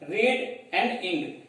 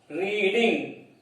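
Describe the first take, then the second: First: Reading broken slowly into read, and, ing; slow syllable split. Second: Said in the usual way. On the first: Shown as a demonstration. Teacher breaking reading into syllables slowly for children. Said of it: "you have two syllables".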